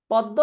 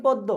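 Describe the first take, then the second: First: পদ্ম as "pɔddo", open ɔ; wide first vowel in পদ্ম; open o sound. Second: পদ্ম as "poddo", close o; rounded first vowel in পদ্ম; close o sound. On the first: Teacher repeating the quiz, পদ্ম with open ɔ. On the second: Teacher repeating the alternative, পদ্ম with close o. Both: Shown as a demonstration. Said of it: "এইটা বলো তাহলে".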